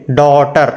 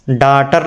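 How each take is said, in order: First: "डॉटर" with rounded aw in the first syllable; correct pronunciation. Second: "डॉटर" misread as daatar, with open aa; wrong pronunciation. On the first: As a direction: say "डॉटर" as daw-tar. ("डॉटर" में गोल ऑ की ध्वनि) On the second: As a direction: say "डॉटर" with आ in place of ऑ. ("डॉटर" को गलत ढंग से डाटर बोलना) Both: Shown as a demonstration. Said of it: "डॉटर नहीं पढ़ेंगे".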